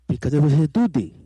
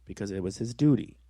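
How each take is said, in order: First: It is said in an altered, put-on character voice. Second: It is said in an ordinary, natural speaking voice. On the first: "in a different voice" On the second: "in my voice"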